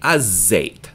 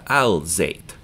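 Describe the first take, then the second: First: The l blends into a doubled z. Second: The l sound is clearly pronounced. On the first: The speaker calls it right. "So we say az-zayt" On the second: The speaker calls it wrong. "not al-zayt"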